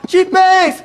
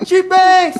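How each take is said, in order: Both takes have the same delivery.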